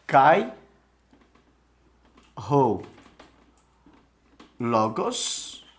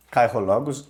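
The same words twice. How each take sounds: First: Kai, ho, logos, each word said alone with long pauses; slow Greek dictation. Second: Said in the usual way. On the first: Shown as a demonstration. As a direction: read Kai ho logos one word at a time, slowly, for students. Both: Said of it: "Então, vamos lá".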